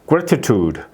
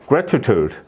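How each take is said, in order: The two takes are said the same way.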